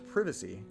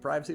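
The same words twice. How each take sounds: First: The word is said with a British pronunciation. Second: The word is said with an American pronunciation.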